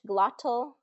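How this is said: The T is pronounced as a clear T. "Standard British"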